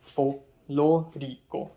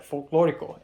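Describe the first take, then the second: First: Folklorico broken slowly into separate syllables; imitating a learner labouring over folklorico; struggling pronunciation. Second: Folklorico said smoothly as one word; fluent pronunciation. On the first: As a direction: sound out folklorico haltingly, piece by piece. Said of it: "Eric can't say it". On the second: Retold or imitated. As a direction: say folklorico with easy, unbroken fluency. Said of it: "then I immediately said folklorico".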